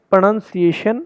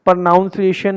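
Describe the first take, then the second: First: प्रोनाउंसिएशन with NUN in the middle, pro-NUN-ciation; corrected pronunciation. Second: प्रोनाउंसिएशन with NOUN in the middle; wrong pronunciation. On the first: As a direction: say NUN, not NOUN, in प्रोनाउंसिएशन. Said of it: "नहीं है ये". (प्रोनाउंसिएशन को 'प्रनन्सिएशन' बोलें) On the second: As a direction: say प्रोनाउंसिएशन like 'pro-NOUN-ciation'. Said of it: "प्रोनाउंसिएशन नहीं है ये". (प्रोनाउंसिएशन में 'नाउन' बोलें) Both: Shown as a demonstration.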